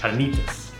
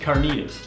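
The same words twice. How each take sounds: First: It is said with a Spanish accent. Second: It is said with a plain English accent. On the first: The speaker calls it right. "we're gonna say it right" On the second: The speaker calls it wrong. "probably shouldn't say it like that"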